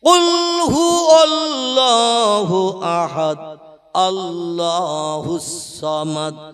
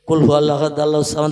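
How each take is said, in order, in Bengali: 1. এটি ধীরে পড়া হয়, প্রতিটি বর্ণ স্পষ্ট করে উচ্চারণ করা হয়। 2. এটি দ্রুত পড়া হয়, শব্দগুলোর মাঝে অল্প সময়ের বিরতি থাকে। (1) "আমি একটু মাখরেজ করে পড়লাম যাতে আপনারা আবরাতে পারেন" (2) "আর জোরে পড়লে"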